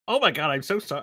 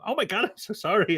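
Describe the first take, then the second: First: Lightly imitated American woman; a hint of American in a retold apology; poor American accent. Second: Higher-pitched mock American woman; poor American accent. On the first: American passenger apologising to two travellers, poor American accent. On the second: American passenger apologising to two travellers, higher poor American accent. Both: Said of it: "apologies for the poor American accent".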